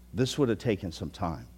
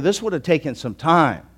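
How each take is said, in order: First: Softer repeat of "This would have taken some time"; quiet echo. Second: Said in the usual way. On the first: Real, not acted.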